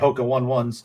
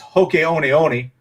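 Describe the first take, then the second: First: The 'one' parts sound like English 'one'. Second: The 'one' parts sound like 'oh-nee'. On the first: This is how Americans commonly say the name. The speaker calls it wrong. "all us Americans say Hoka one ones" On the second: This is the original pronunciation of the name. The speaker calls it right. "it's Hoke Oni Oni"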